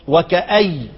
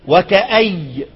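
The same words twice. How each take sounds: First: The word ends on a y sound. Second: The word ends on a y sound.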